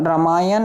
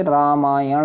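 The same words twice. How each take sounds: First: रामायण with short first vowel and dental n; wrong form. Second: रामायण slowly with long raa and retroflex ṇ; correct form. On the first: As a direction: say रामायण as ra-maa-yan. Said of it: "नहीं होता बच्चे". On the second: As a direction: stretch रामायण as raa-maa-yaṇ. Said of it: "होता है". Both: Shown as a demonstration.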